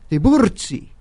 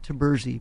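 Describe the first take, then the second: First: The name is said with an Italian pronunciation. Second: The name is said with an American pronunciation. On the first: This is how Italians say it. "pronounce it like the Italians" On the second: This is how the family says it. "we pronounce it Tiburzi"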